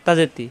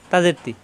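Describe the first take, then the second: No difference in how they are said.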